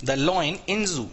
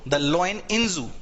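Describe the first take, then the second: First: Same slow drawn-out reading again; slow repeat. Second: Drawn-out reading of The lion in zoo; slow example. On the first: Teacher repeating the phrase for the students. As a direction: repeat it just as slowly. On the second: Teacher showing students how to phrase it. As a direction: say it slowly, word by word. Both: Shown as a demonstration. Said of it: "ऐसे बोल दो".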